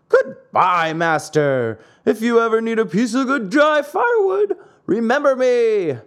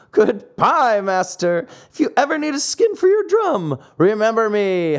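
First: Shouted high across the water; louder call. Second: Laughing call. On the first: Pinocchio shouts back to his master from afar, loud. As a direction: call out louder from far away. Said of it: "called louder than before". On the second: Pinocchio calls back teasing to his master, gleefully. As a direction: tease the old man as you swim off. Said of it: "He cried out, laughing". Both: A narrator's reading.

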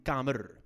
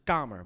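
First: "kamer" with the last R rolled out; "kamer" ending on a trilled R; rolled final R. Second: Said in the usual way. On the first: Shown as a demonstration. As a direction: roll the R at the end of "kamer". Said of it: "maar niet kamer". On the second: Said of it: "Ik zeg kamer".

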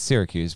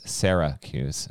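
First: Said in the usual way. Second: Put-on slow, teasing Memphis-accented "Syracuse". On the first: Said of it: "It's Syracuse, but your, your Memphis accent". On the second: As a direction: draw out "Syracuse" as SARE-uh-kyooz, imitating a Memphis accent. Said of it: "your Memphis accent goes Syracuse".

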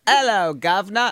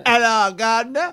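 First: London "'Ello, guv'nor" shown for copying; London accent. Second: Clumsy copy of a London accent; attempted London accent. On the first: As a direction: model the London accent, dropped H and rising end. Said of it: "into my London accent". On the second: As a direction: try a London accent and miss it. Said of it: "Let me say it". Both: Shown as a demonstration.

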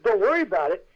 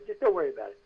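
First: Louder, higher disbelieving echo; incredulous echo. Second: Unforced, easy brush-off; retold soothing at ordinary pitch; casual reassurance. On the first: Retold or imitated. Unprepared actor to crew, incredulous echo. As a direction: throw the reassurance back, raised voice. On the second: Crew to unprepared actor, casually reassuring.

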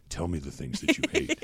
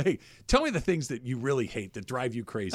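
First: Low, flat, solemn delivery; deadpan and grim, like a threat; bad acting. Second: Friendly. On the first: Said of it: "You can't say it like that". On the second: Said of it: "But you go". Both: Shown as a demonstration.

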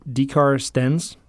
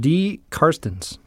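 First: "D Carstens" said slowly, rising like a question; "D Carstens", slow, Carstens stressed, rising end; pronunciation try. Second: "D Carstens" said slowly, stress on D, falling; "D Carstens", slow, D stressed, falling end; pronunciation try. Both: Shown as a demonstration.

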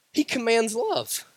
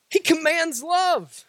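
First: Said in the usual way. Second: Emphatic shout. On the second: Acted. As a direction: cry it out to the congregation. Shouted repeat of same line.

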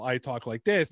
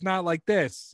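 First: Said in the usual way. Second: Higher-pitched put-on Boston accent. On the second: Shown as a demonstration. YouTuber showing the voice he dropped, Boston accent. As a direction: flip briefly into the Boston character. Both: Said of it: "why don't you drop the shitty Boston accent".

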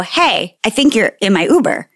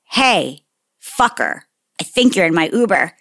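First: Light questioning lilt, rising at the end; tentatively flag down a stranger; retold courteous heads-up; polite first approach. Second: Measured, with pauses and a falling end; retold controlled irritation; pointed second warning. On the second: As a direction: confront someone who ignored you. Second, ruder attempt after being ignored.

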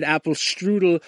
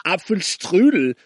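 First: Apfelstrudel said the American way, like "apple strudel"; anglicized Apfelstrudel. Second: Apfelstrudel in German, with pf and a "shtroo" sound. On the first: Tourist mocked by older German men, Apfelstrudel mispronounced as English "apple strudel". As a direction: say Apfelstrudel with plain English sounds. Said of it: "because you said Apfelstrudel".

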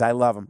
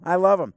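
First: Said in the usual way. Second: Emphatic love. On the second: Real, not acted. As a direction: lean into "love" with glee. Second take, higher and louder.

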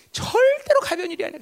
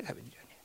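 First: 절대로 stretched, pitched up for force; stress on 절대로. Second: Very soft, low repeat; barely voiced afterthought; hushed echo. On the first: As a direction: lean hard and long on 절대로. Emphatic statement, then hushed echo. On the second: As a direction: drop right down, almost to a whisper. Hushed echo of emphatic statement. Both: Real, not acted.

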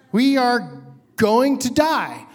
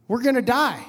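First: "We are going to die" slowly, each word separate; slow, emphatic realization. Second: Said in the usual way. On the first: Retold or imitated. Passenger realizing the helicopter will crash, slow emphatic "going to die". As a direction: spell out "going to die" with slow, deliberate weight. Repeats the thought, spelled out.

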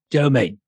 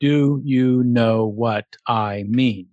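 First: "Do you mean" squashed into two syllables, "Joe mean"; Jason Statham. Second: Said in the usual way. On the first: Shown as a demonstration. Teaching a Statham key, "Do you mean" slurred into "Joe mean". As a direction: run "Do you mean" together fast as "Joe mean". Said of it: "Which he says as". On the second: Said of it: "if you say those six words in a row".

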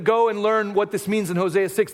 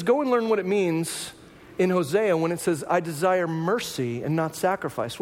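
First: Said in the usual way. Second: Slow solemn quote. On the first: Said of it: "if he said to them". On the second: Retold or imitated. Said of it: "He says".

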